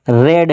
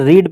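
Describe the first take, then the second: First: The vowel is short, like 'red'. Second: The vowel is long, like 'reed'. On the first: The speaker calls it right. "रेड है, क्योंकि कौन सी फॉर्म है verb की, second फॉर्म है" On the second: The speaker calls it wrong. "अगर आप इसे रीड पढ़ रहे हो तो फिर गलत है"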